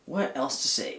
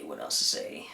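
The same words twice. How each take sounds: First: Said in the usual way. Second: Low whispered repeat. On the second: Real, not acted. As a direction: whisper it to yourself, lower. Repeats the question playfully.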